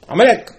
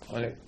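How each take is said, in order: First: Sudden loud high exclamation; the name burst out loud and high; shocked cry. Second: Said in the usual way. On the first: Retold or imitated. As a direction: shout it like a shocked discovery. Discovering the neo-Nazi newspapers.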